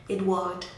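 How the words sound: The name is pronounced the French way. "Let me say the French pronunciation"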